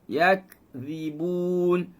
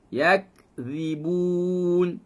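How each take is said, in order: No difference in how they are said.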